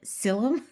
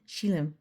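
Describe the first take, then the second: First: The word begins with an s sound. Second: The word begins with an sh sound. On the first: The speaker calls it wrong. "I was confused because of the the s and the sh" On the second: The speaker calls it right. "a lot of times the s becomes a sh"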